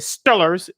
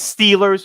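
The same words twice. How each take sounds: First: The name is said in a casual slangy way. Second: The name is said just as it is spelled. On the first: This is how younger people say it. The speaker calls it wrong. "as some of you young folks would say" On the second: This follows the written name. The speaker calls it right. "But it's Steelers. Read the name, pronounce it correctly"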